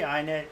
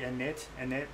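First: The word begins with an 'eye' vowel sound. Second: The word begins with a short 'ih' vowel. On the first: The speaker calls it wrong. "for some reason I always pronounce it wrong" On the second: The speaker calls it right. "most people say init"

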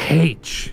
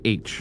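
First: The letter name begins with an h sound. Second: The letter name begins with no h sound. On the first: The speaker calls it wrong. "you don't say H" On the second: The speaker calls it right. "You say H"

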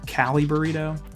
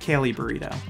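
First: It is said in an American accent. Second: It is said in an Australian accent.

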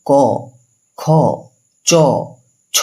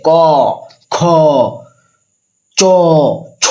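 First: The letters are said at a normal loudness. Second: The letters are said loudly and with force. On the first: The speaker calls it right. "তুই normal বল" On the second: The speaker calls it wrong. "কটাকে জোরে করে উচ্চারণ করার চেষ্টা করিস"

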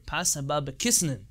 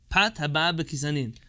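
First: It uses an Ashkenazi Hebrew pronunciation. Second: It uses a non-Ashkenazi Hebrew pronunciation.

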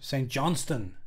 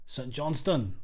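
First: It is said in the speaker's ordinary accent. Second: It is said in a put-on Scottish accent.

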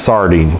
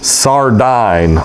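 First: The last syllable has an 'ee' vowel. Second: The last syllable has a long 'i' vowel. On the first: It names the small fish. The speaker calls it wrong. "This is not pronounced sardine, for that little Mediterranean fish" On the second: It names the precious stone. The speaker calls it right. "long I"

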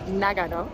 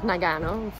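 First: The name is said with an even, Japanese-style pronunciation. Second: The name is said with an American-style pronunciation. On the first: The speaker calls it right. "It's Nagano" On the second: The speaker calls it wrong. "not Nagano. Yankee that I am"

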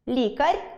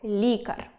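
First: The final r sound is soft. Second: The final r sound is hard. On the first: The speaker calls it wrong. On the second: The speaker calls it right.

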